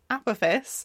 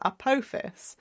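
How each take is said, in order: First: The stress is on the first syllable. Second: The stress is on the second syllable. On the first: "some people pronounce it with the stress on the first syllable" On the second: "some people with the second syllable"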